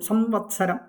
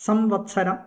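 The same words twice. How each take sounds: Both takes have the same delivery.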